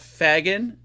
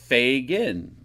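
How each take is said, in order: First: The first syllable has an 'ah' vowel. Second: The first syllable has an 'ay' vowel. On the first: The speaker calls it wrong. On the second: The speaker calls it right.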